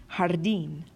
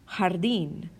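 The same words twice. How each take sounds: Both takes have the same delivery.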